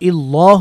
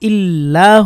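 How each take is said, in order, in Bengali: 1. L-এর উচ্চারণ ভারী ও মোটা। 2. L-এর উচ্চারণ হালকা ও পাতলা। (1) "ইল্লাহ হলো না কেন" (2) "এখানেও ইল্লাহ হলো কেন"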